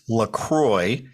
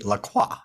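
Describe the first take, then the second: First: The name is said with an American pronunciation. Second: The name is said with a French pronunciation. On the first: "normally in the United States, it's LaCroix" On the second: "If you're in Montreal, Quebec, or France, it would be Lacroix"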